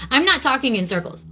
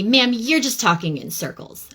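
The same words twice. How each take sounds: First: Higher, indignant retold comeback hitting "not"; retold retort. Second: Mildly mocking a condescending phone agent; a touch of patronizing customer service; condescending retelling. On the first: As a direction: stress on "not", pitched higher. Her retort to the agent. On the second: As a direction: talk down to the caller, lightly imitated. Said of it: "she was being super condescending".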